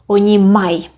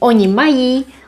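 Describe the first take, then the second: First: The verb is clipped, dropping the final vowel. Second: The verb ends with a full final vowel. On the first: This is informal speech. "we can say oni maj" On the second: This is the standard form. "Instead of saying oni mají"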